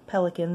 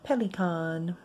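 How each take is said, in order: First: It sounds like the English bird word. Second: It sounds unlike the English bird word.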